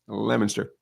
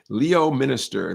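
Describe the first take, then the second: First: The name is pronounced unlike its spelling. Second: The name is pronounced the way it is spelled. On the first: The speaker is from the area. The speaker calls it right. "but Leominster" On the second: The speaker is not from the area. The speaker calls it wrong. "Leo Minister is what it looks like"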